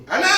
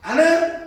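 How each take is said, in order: First: "Ana!" called again, pitched even higher and sharper; higher angry call. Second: Put-on a furious parent shouting a child's name, loud and high; angry parent's call. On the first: Retold or imitated. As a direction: push "Ana!" up a step, angrier. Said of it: "Nadanya tinggi lagi". ("Ana!" dipanggil lebih tinggi dan lebih marah) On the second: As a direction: yell the name like an angry mum. Parent angrily calling child. (teriakan marah orang tua memanggil anak)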